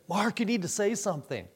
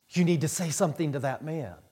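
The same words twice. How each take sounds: First: Higher, quick, mildly anxious voice; retold nervous urging. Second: Quick, understated urging; mildly urgent wife. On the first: Wife pressing Mark to warn a man, lightly acted nerves. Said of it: "she got real nervous". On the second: Retold or imitated. Wife nudging husband to warn a man, mildly urgent. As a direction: imitate a wife's first quick prompt. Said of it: "she hit me on the shoulder, and she said".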